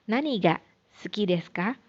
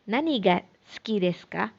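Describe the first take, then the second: No difference in how they are said.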